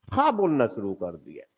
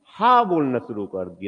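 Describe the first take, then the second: First: हा said with a breathy h where सा had an s. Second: हा with an h sound, repeated for the class. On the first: Teacher demonstrates the Persian h for sa. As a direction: stress हा with an h, dropping the s. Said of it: "वो सा को जो है सा उच्चारण नहीं कर सकते". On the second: Teacher repeats the Persian h sound for students. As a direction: say हा, the h replacing s. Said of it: "सा को क्या बोलना शुरू कर दिए". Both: Shown as a demonstration.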